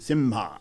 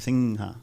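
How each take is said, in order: First: The nasal before the h sounds like m. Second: The nasal before the h sounds like ng. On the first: This is a southern regional pronunciation. "Some people in South" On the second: This is a northern regional pronunciation. "in North India and especially in the Bengal region"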